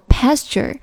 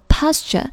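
First: It is said with an American accent. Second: It is said with a British accent. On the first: "一般发的都是美式发音，读作pasture" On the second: "a 在英式英语当中发的是r 的音，他们读作pasture"

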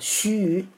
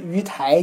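First: Both syllables are read as xu yi. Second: Both syllables are read as yu tai. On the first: The speaker calls it right. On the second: The speaker calls it wrong.

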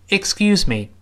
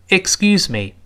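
No difference in how they are said.

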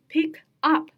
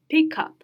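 First: The two words are said separately. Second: The k sound joins onto the next word. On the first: "它单独读的话叫pick up" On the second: "但是我们可以把它直接读成cup 啊"

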